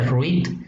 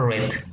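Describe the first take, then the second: First: The vowel is a long 'ee' sound. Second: The vowel is a short 'e' sound. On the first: It refers to the present tense. "en el presente se pronuncia read" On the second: It refers to the past tense. "en el pasado se pronuncia red"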